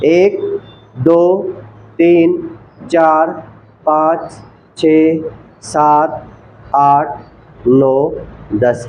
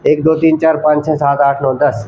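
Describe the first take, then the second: First: The numbers are counted slowly with pauses. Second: The numbers are rattled off quickly together. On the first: The speaker calls it right. "इसी प्रकार से counting करना है" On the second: The speaker calls it wrong. "ऐसे नहीं कि ये पैर रखा"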